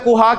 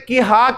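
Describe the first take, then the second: First: The first vowel is a short 'u'. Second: The first vowel is a short 'i'. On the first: "कहा को मैं कुहा कह दूं" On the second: "अगर कहा को मैं किहा कह दूं"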